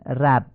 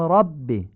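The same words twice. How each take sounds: First: رب with Persian short a; Persian fatha. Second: رب with open heavy a; Arabic fatha. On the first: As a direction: say رب with a light front a. (رب با فتحهٔ فارسی) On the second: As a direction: say رب with a short open a. (رب با فتحهٔ عربی درشت) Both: Shown as a demonstration.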